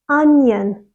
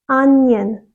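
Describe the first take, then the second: The two takes are said the same way.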